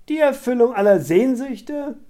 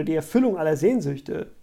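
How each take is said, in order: First: High, loud, scornful echo; mocking cry. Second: Said in the usual way. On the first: A narrator's reading. Scarlett jeers at Barry's suggestion, loudly mocking it. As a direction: throw it back as a derisive question. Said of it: "rief Scarlett höhnisch".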